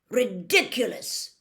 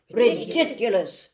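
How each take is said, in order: First: Teacher says the charm slowly, falling at the end; Ridiculous said as a slow, clear model word; spell demo. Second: Ridiculous chanted slowly and louder by the whole class; class chorus. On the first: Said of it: "After me, please". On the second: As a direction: echo the charm together, louder. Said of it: "said the class together". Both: Acted.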